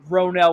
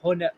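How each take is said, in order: First: The name begins with an R sound. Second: The name begins with an H sound. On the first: The speaker calls it wrong. "which is definitely not the way you say it" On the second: The speaker calls it right. "We're probably like Honel"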